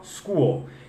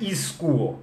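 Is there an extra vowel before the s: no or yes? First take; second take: no; yes. First: The word starts directly with the s sound. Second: An extra vowel sound comes before the s. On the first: The speaker calls it right. "é só school" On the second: The speaker calls it wrong. "não é school"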